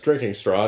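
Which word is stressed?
drinking. The stress falls on the word drinking. It is a straw used for drinking. The speaker calls it right. "I assume that's drinking straw"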